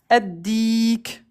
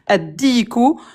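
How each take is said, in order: First: The word ends without the final vowel. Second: The word ends with a final vowel sound. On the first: The speaker stops after the word. "à l'arrêt on le prononce addik" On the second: The word is read in its full written form. "ça s'écrit comme ça addiku"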